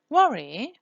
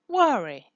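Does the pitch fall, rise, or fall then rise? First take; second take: fall-rise; fall. First: The pitch falls then rises. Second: The pitch falls at the end.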